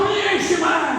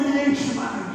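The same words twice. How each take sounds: First: It is said loudly. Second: It is said at normal volume.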